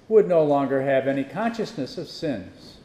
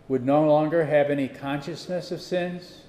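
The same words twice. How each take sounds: First: It is read as a statement. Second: It is read as a question.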